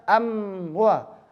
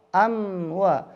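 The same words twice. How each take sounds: The two takes are said the same way.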